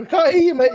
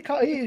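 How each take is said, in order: First: Louder retold phone yell; retold shout. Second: Said in the usual way. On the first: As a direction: shout it like a bad phone line. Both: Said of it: "He's fucking screaming down the phone".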